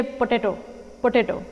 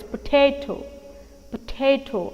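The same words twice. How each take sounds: First: Potato said as po-tay-toh with wrong stress; wrong pronunciation. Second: Potato with the weight on ta; stress on second syllable. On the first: Teacher quoting the mistake. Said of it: "It's wrong". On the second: Teacher modelling correct potato. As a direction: press the ta in potato. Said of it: "I'm stressing on the second syllable here". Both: Shown as a demonstration.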